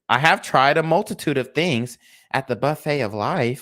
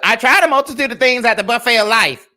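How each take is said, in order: First: It is said softly and gently. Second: It is said loudly and harshly.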